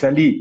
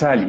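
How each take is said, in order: First: The stress is on the last syllable. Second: The stress is on the first syllable. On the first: The speaker calls it right. "es Salí, con la tilde en la I" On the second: The speaker calls it wrong. "No es Sali"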